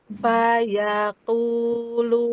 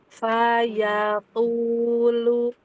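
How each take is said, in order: First: The 'a' vowels are said with the mouth wide open. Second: The same.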